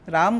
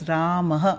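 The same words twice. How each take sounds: First: The name ends on a bare m sound. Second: The name ends with a short breathy ah. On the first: The speaker calls it wrong. "राम गलत है" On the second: The speaker calls it right. "सही pronunciation है राम"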